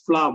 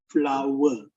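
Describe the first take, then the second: First: The vowel is not drawn out like 'power'. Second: The vowel is drawn out, rhyming with 'power'. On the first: The speaker calls it wrong. "We normally say as flour" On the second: The speaker calls it right. "but the correct pronunciation is flower"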